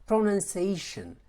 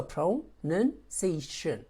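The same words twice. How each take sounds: First: Said in the usual way. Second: PRONUNCIATION slowly broken into separate syllables. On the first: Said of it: "multiple syllable words". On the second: Shown as a demonstration. Teacher showing it has several syllables, PRONUNCIATION slowly split syllable by syllable. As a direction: say PRONUNCIATION in slow pieces, with a gap between syllables. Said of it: "is not a single syllable word".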